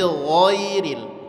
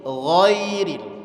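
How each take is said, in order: The two takes are said the same way.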